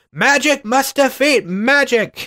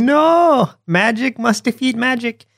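First: High, drawn-out cartoon uncle; imitating a cartoon uncle's catchphrase, high-pitched; Uncle impression. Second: High mock yell, cartoon uncle; hammed-up high cry with a long NO; Uncle impression. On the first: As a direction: chant it high and slow like a fussy cartoon uncle. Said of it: "Uncle just keeps going". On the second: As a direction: pitch it way up, imitating an insistent cartoon uncle. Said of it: "And yelling it".

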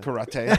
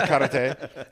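First: Said in the usual way. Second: Karate said through a laugh. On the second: Real, not acted. Podcaster repeats karate, laughing. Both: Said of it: "laughs karate".

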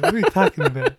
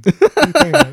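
First: A lighter, rising incredulous repeat; milder mock disbelief. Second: Loud mock outrage, pitch jumped high; mock outraged yell. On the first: Host repeats the question to cohost, milder mock disbelief. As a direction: ask again, half laughing. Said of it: "repeated question, milder take". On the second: Podcast host fakes outrage at cohost, loud mock yell. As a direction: shout it in exaggerated disbelief. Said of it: "repeated mock-offended question". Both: Shown as a demonstration.

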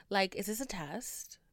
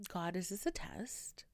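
First: Said in the usual way. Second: Whispered, softer plea to the sky; exasperated whisper. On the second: Real, not acted. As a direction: breathe it out like a private prayer, worn out. Asking God in exasperation.

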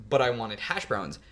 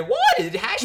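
First: Said in the usual way. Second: High, slow line with a voice crack. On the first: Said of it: "one of my lines is". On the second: Shown as a demonstration. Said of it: "I had a voice crack".

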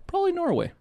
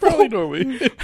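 First: High joking aside. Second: Laughing echo. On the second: Repeats laughing. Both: Real, not acted.

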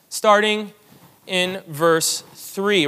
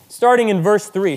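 First: Slow, spaced-out repeat. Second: Said in the usual way. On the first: Shown as a demonstration. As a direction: stretch each word out slowly. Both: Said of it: "Philippians chapter one, starting in verse three".

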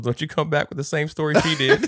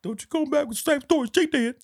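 First: Raised, louder scolding in a retelling; mock scolding. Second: Very high-pitched, hammed-up warning; exaggerated mock scolding. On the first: Retelling Future warning as he walks away, mock scolding. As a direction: imitate a telling-off with laughter at the end. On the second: Repeating [name]'s warning for laughs, squeaky mock scolding. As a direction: squeal the telling-off as a silly imitation.

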